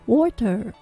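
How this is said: The final R is strongly pronounced. "アメリカ英語だと"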